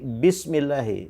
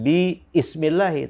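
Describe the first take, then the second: First: 'Bi' runs straight into the 's' sound. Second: A separate 'i' vowel is sounded after 'bi'. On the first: The speaker calls it right. "tapi bismillahi. Jadi bi langsung ke sin" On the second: The speaker calls it wrong. "bukan bi ismillahi"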